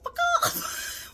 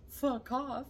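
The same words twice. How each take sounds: First: It is said forcefully, with energy. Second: It is said flatly, without force.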